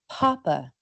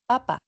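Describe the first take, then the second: First: The p sounds are released with a puff of air. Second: The p sounds are released without a puff of air. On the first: "en inglés, ... se pronuncian típicamente con más aire" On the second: "en español"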